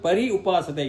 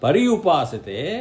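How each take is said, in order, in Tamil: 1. pari, upasate இரண்டும் தனித்தனி சொற்களாகச் சொல்லப்படுகின்றன. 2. சொற்கள் ஒன்றாக இணைகின்றன; pari, pary ஆகிறது.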